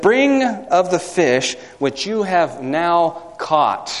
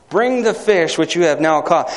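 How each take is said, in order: First: Every word drawn out slowly; slow solemn scripture reading; slow, deliberate reading. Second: Said in the usual way. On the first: Shown as a demonstration. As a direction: read the command slowly, weighing each word. Preacher reading Jesus' command slowly.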